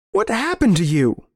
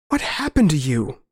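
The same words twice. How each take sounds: First: High, distraught question; appalled plea. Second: Strained question, somewhat higher; just manage to get the question out; barely managed plea. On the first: Narrator appalled at his old friend's change, anguished question. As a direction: demand it in anguish, pitch up high. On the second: Narrator backing away from his old friend, barely managed plea. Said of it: "I managed". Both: Acted.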